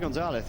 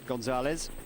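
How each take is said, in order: First: The final z sounds like a th. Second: The final z sounds like a z. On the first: The speaker calls it wrong. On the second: The speaker calls it right.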